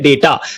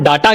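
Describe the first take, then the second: First: The first vowel sounds like 'ay'. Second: The first vowel sounds like 'ah'. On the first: The speaker calls it right. "इसको बोलते हैं डेटा" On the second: The speaker calls it wrong. "कुछ लोग इसको डाटा कहते हैं, जो कि गलत है"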